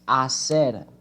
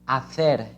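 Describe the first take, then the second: First: The c is said with an s sound. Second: The c is said with a th sound. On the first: This is how it is said in most of Latin America. "in most of the countries, like Argentina, like um, Mexico, like Colombia ... we only pronounce it hacer" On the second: This is how it is said in Spain. "This word in Spain is pronounced hacer, hacer, with the tongue behind your front teeth"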